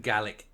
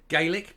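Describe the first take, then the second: First: The word has the Scottish pronunciation. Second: The word has the softer Irish pronunciation. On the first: The language referred to is the Scottish one. "I will change it to Gaelic this time because we're dealing obviously with Scotland" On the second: The language referred to is the Irish one. "I come from Ireland and I have the softer pronunciation"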